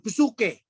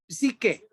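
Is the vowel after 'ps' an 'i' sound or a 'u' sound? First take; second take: u; i. First: The vowel after ps is an u sound. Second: The vowel after ps is an i sound. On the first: The speaker calls it wrong. "Jadi bukan psuke, bukan" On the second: The speaker calls it right.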